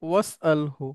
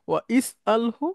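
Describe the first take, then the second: First: The 'i' vowel is dropped, linking 'was'. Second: The 'i' vowel after 'wa' is pronounced. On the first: This is how it is actually read. "তখন ওয়াসলার জেডটা আর উচ্চারণ হবে না" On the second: This is the underlying form. "মূলত ছিল"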